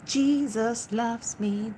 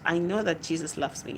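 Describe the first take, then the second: First: Slow, high sung line; sung Jesus loves me. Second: Said in the usual way. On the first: Real, not acted. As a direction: sing it like the hymn. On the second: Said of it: "sings it".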